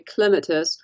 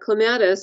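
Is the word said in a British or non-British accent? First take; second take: British; non-British. First: It is said the way British in-laws say it. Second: It is said in the speaker's usual non-British way.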